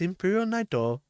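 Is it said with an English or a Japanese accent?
Japanese. It is said in a Japanese accent.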